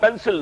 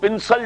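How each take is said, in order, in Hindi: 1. यह शब्द मानक तरीके से बोला गया है। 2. यह शब्द सहपाठी के घर के तरीके से बोला गया है। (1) "पेंसिल नहीं हो सका" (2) "उसका वो पेंसिल जो है"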